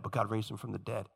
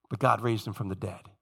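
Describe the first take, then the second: First: Quieter echo, trailing off on "dead"; fading repeat. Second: "God" weighted, low and quieter; soft declaration. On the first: Shown as a demonstration. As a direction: say it again almost to yourself. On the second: Retold or imitated. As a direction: state it softly, letting "God" carry. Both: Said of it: "this theme constantly".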